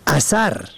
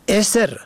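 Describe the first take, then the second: First: اثر said "asar", a in both syllables; short a in both syllables. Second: اسر said "eser", opening on short e; short e first. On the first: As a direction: say اثر as "a-SAR", with two short a vowels. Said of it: "به فتح اول و دوم". (اثر با فتح اول و دوم، «اَثَر») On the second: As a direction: start اسر with e, as in "ESR". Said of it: "به کسر اول و سکون دوم". (اسر با کسر اول، «اِسر») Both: Shown as a demonstration.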